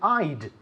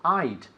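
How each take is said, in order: First: The words are squeezed into one short syllable. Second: The same.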